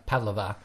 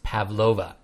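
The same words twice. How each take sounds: First: PAV-lova, weight on the PAV of Pavlova; stress on first syllable. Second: Pav-LO-va, leaning on the LO of Pavlova; stress on second syllable. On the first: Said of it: "you'd probably get a funny look". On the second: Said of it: "is definitely pronounced Pavlova". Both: Shown as a demonstration.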